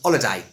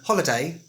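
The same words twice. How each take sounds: First: The word starts without an H sound. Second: The word starts with an H sound.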